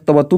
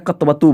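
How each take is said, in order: First: The first k joins the t directly. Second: The first k carries a full vowel. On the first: The speaker calls it right. "यहाँ पर पूरा का नहीं बल्कि आधा का है" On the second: The speaker calls it wrong. "कई लोग कतवत या कतवतु बोल देते हैं, हालांकि वह बोलना उचित नहीं होगा क्योंकि आप पूरा का बोल रहे हैं"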